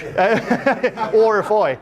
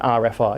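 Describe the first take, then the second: First: The letter R is said in an Irish accent. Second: The letter R is said in a plain accent.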